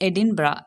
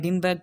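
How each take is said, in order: First: The word ends with a vowel sound. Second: The word ends with a hard g sound. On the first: The speaker calls it right. "It's எடின்பரா, எட் இன் ப அ" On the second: The speaker calls it wrong. "It's not எடின்பர்க்"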